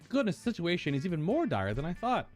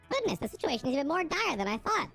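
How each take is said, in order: First: It is said in a normal voice. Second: It is said in a put-on character voice.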